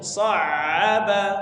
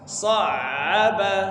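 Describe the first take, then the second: No difference in how they are said.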